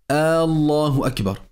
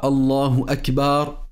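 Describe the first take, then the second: First: The opening vowel of Allah is drawn out. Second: The b sound in Akbar is drawn out. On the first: "ne pas prolonger le son de la hamza au début du nom de Allah" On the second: "Ni celui de la lettre Ba du mot Akbar"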